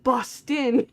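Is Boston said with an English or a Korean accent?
Korean. It is said in a Korean accent.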